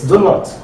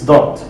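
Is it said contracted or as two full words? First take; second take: full; contracted. First: It is said as two separate full words. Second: It is said as one reduced, contracted word. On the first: "It's do not" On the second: "We said it's don't. So that's a reduction"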